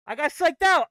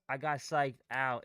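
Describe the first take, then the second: First: Loud furious self-blame; angry shout. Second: Said in the usual way. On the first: Real, not acted. Trader angry he got psyched out, loud shout. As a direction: yell it at yourself.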